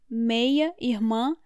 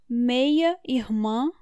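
No difference in how they are said.

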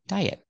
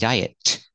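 First: The final T is held back with no burst of air. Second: The final T is released with a burst of air. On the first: The speaker calls it right. "It's a stop T" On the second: The speaker calls it wrong. "Don't say diet. Don't release a T"

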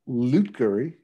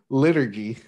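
First: The U sound comes in the first syllable. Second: The U sound comes in the second syllable. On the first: The speaker calls it wrong. "You're switching the placement of the U" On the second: The speaker calls it right. "Yes, liturgy"

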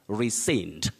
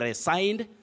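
First: The stressed vowel sounds like 'sin'. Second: The stressed vowel sounds like 'sign'. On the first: The speaker calls it right. "You say rescind" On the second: The speaker calls it wrong. "Don't say resigned"

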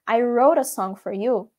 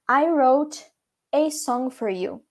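First: Said fast and joined, with a reduced 'a'. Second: Said slowly, with 'a' pronounced like 'ay'. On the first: "tudo junto, tudo meio que rápido" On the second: "você pode falar pausadamente e o A pode ter o som de A"

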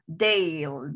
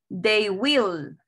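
First: It is said as one contracted syllable. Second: It is said as two full words. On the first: "en forma corta ... Una sola sílaba"

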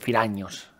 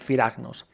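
First: The middle sound is a single ny sound. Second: The middle sound is a separate g then n. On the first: The speaker calls it right. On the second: The speaker calls it wrong.

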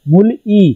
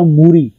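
First: The l ends the first syllable, kept apart. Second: The l moves over to start the second syllable. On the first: "मूल ई वर्ड है लिखने में" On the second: "ये वर्ड बन जाएगा मूरी"

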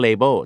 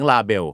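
First: The first syllable sounds like 'lay'. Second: The first syllable sounds like 'lah'. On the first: The speaker calls it right. "บางกลุ่มก็จะรู้ว่ามันออกเสียงว่า" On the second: The speaker calls it wrong. "แต่หลายคนชอบออกเสียงลาเบล"

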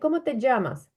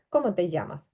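First: The double L is said as a dzh sound. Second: The double L is said as a y sound. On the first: This is how some listeners hear other speakers say it. "українське вухо чує у іншого носія на місці оцього, що я кажу «ї», «дж»" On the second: This is the form learners should remember. "Це просто «ї». От запам'ятайте, «ї»"

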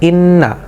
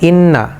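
Both takes have the same delivery.

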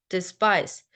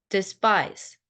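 Both takes have the same delivery.

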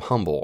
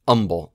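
First: The word begins with an audible h sound. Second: The word begins without an h sound. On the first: "the term humble or humility" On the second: "some people might say humble, like my father-in-law says humble"

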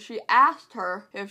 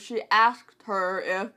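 First: The K in 'asked' is dropped and the words run together. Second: The K in 'asked' is stressed, with a slight break after it. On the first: The speaker calls it wrong. "it just sounds like I'm saying she asked her if she could do this thing" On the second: The speaker calls it right. "I try my best to put emphasis even when I'm saying it in that way"

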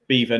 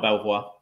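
First: It sounds like the word beaver. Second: It sounds like bel-vwar, as spelled. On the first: The speaker calls it right. "Beaver, not Belvoir" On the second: The speaker calls it wrong. "not Belvoir"

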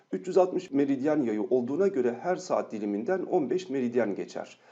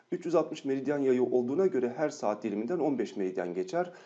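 No difference in how they are said.

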